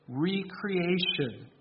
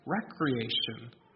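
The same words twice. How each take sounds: First: The first syllable is a full 'ree', like re-creation. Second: The first syllable is a short 'reck'. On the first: Being created anew. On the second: Leisure and amusement.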